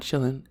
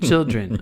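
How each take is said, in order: First: The ending is reduced, sounding like 'chillin'. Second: The ending is fully pronounced as 'dren'. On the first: The speaker calls it wrong. "not chilling" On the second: The speaker calls it right. "you have to say children"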